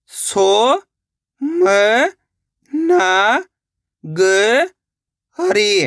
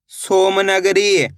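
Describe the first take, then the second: First: सोमनगरी split into सो, म, न, ग, री with long pauses; syllable by syllable. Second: Said in the usual way. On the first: Shown as a demonstration. Teacher breaking a long word down, सोमनगरी sounded out slowly syllable by syllable. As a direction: stretch every syllable of सोमनगरी separately. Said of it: "एक एक अक्षर का उच्चारण करके". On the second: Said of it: "तो मिलके बन जाएगा".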